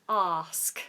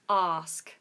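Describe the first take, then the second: The two takes are said the same way.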